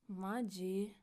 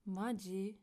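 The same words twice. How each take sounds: First: It sounds annoyed and fed up. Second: It sounds annoyed and fed up.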